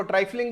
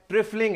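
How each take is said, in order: First: ट्राइफलिंग said with a long "try" first syllable; alternative pronunciation. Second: ट्रिफलिंग said with a short "tri" as in "trip"; recommended pronunciation. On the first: Teacher showing how some people say it, alternative pronunciation of ट्राइफलिंग with "try". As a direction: say ट्राइफलिंग as "TRY-fling", rhyming its start with "eye". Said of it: "कुछ लोग इसको ट्राइफलिंग भी बोलते हैं".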